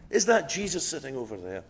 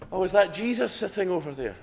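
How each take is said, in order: First: Said in the usual way. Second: Lightly Irish, higher and louder; a half-hearted go at an Irish voice, pitched up; attempted Irish accent. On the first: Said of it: "I won't attempt a". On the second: Irishman spotting someone across the restaurant, attempted Irish accent. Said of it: "an Irish accent".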